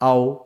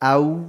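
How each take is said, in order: First: The vowel glides toward an o sound. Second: The vowel glides toward a u sound. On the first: The speaker calls it wrong. "ভুল পড়া, এটা মাঝুল পড়া হচ্ছে" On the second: The speaker calls it right. "সঠিক মারুফ পড়া হচ্ছে এরকম, উ টাইপের একটা টান আসবে"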